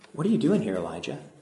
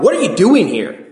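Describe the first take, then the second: First: It is said in a gentle, kind tone. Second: It is said in a harsh, scolding tone.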